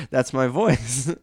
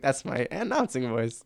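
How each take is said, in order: First: Slow, booming announcer voice; announcing voice. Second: Said in the usual way. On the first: Retold or imitated. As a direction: show mom the stadium voice. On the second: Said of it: "That's not your voice".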